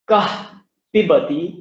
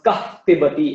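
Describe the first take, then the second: First: The words are said separately without a puffed breath. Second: A soft puffed breath joins the two words.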